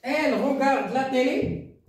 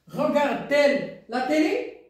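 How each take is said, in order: First: Said in the usual way. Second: High question, rising on "télé"; question intonation. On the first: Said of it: "C'est une phrase déclarative". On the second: Shown as a demonstration. Teacher turns the statement into a question, question intonation. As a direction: ask it with "télé" lifted at the end. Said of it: "on a posé la question".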